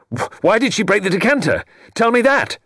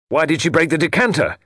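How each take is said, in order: First: Much higher and louder, rising to a desperate shout; stammer, then hurl the demand; frantic cry. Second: Raised and higher, demanding an answer; crying out. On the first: Portal at breaking point demanding the truth, shouting higher. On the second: Portal in anguish demanding why his wife broke the decanter, crying out. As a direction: cry it out at the room. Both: Acted. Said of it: "he cried".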